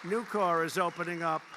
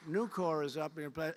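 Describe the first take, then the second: First: Emphatic. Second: Said in the usual way. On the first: Real, not acted. Repeated name, first take louder.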